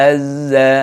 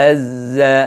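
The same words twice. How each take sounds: Both takes have the same delivery.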